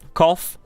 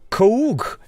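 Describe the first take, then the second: First: The ending is pronounced as an f sound. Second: The ending is not pronounced as an f sound. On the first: The speaker calls it right. "A double F. Uff" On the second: The speaker calls it wrong.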